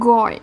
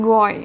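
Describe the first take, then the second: No difference in how they are said.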